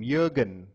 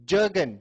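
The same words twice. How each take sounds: First: Jürgen with a y sound at the start; German pronunciation. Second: Said in the usual way. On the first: Shown as a demonstration. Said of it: "That's a German way of pronouncing it".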